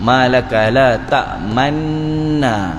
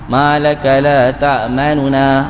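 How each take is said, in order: First: The lips round silently with no vowel heard. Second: A faint, partial u vowel is heard. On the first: "Mulut itu muncung tapi orang tak dengar" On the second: "dibaca dengan sepertiga bunyi, harakah"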